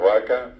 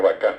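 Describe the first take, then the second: First: "vaca" stressed on the first A; stress on first syllable of VACA. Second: "vacá" stressed on the final A; stress on last syllable of VACÁ. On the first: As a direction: say "vaca" the Castilian way, VA strong. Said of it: "acento llano". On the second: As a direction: say "vacá" the Guaraní way, CÁ strong. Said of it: "el guaraní estira al final". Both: Shown as a demonstration.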